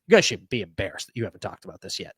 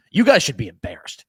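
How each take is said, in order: First: Said in the usual way. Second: Louder retold fan rant, not a real scream; mock fan yell. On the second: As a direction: imitate an angry fan in a voice note. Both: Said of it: "the Dallas fans screaming".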